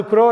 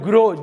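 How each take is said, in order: First: "க்ரோ" with a voiceless k, as in crow; hard k sound. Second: "க்ரோ" with a voiced g, as in grow; voiced g sound. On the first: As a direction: start "க்ரோ" on a crisp k, not g. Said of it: "க்ரோன்னா காக்கா". ("க்ரோ" என்பதை 'க' ஒலியுடன், காக்கையைக் குறிக்கும் crow போல) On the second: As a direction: start "க்ரோ" on a g, not k. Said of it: "ஆனா அது க்ரோ இல்ல". ("க்ரோ" என்பதை மென்மையான g ஒலியுடன், grow போல) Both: Shown as a demonstration.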